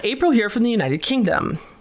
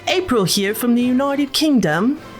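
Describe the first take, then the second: First: It is said in her normal American accent. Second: It is said in a put-on British accent.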